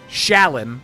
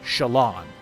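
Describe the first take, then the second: First: The last syllable sounds like 'lin'. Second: The last syllable sounds like 'lon'. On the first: This is how the speaker first read the name. "I pronounce it like Shalyn" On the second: This follows the spelling of the name more closely. "I tried to train myself in part three to pronounce it Shalon"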